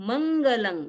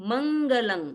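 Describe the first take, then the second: Both takes have the same delivery.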